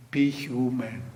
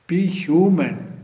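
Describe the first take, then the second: First: Said in the usual way. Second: "Be human" slower and louder, weight on "Be"; emphatic repeat. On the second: Shown as a demonstration. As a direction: lean on "Be human", slow and firm.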